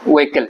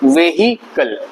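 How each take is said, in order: First: The middle h is left silent. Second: The middle h is sounded clearly. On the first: The speaker calls it right. "ये व्हीकल होता है" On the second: The speaker calls it wrong. "But ये वेहिकल नहीं होता है"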